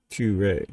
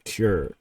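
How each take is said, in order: First: It is said with a Japanese-style pronunciation. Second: It is said with a plain English pronunciation. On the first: "because it's uh, Japanese, and that's how they pronounce stuff" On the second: "it's just Cure"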